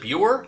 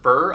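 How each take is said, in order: First: The name rhymes with the word pure. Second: The name does not rhyme with pure.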